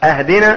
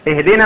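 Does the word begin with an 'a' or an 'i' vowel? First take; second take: a; i. First: The word begins with an 'a' vowel. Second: The word begins with an 'i' vowel. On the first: It asks for a gift. The speaker calls it wrong. "اهدنا يعني من الهدية" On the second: It asks for guidance. The speaker calls it right. "اهدنا من الهداية"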